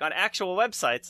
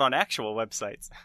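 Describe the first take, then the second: First: The phrase is said with an excited inflection. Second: The phrase is said with a dismissive-sounding inflection. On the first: Expresses excitement at being covered by real sites. The speaker calls it right. "the inflection was more my excitement" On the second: Implies other websites are not real ones. The speaker calls it wrong. "I kind of messed up the inflection there"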